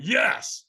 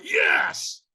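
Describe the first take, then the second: First: Said in the usual way. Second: High, straining shouted yes; pitched-up shout, trying harder; stronger yes. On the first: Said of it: "I wasn't in a peak state". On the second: Retold or imitated. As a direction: yell it with much more force.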